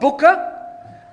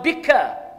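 First: The first vowel is a 'u'. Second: The first vowel is an 'i'. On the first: The speaker calls it wrong. "Not buka" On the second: The speaker calls it right. "Wa bika. Not buka"

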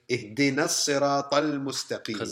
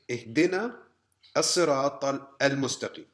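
First: The alif is dropped, joining the words smoothly. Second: The alif is pronounced, breaking the words apart. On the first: The speaker calls it right. "Instead, we say, ... Connects" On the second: The speaker calls it wrong. "we don't say"

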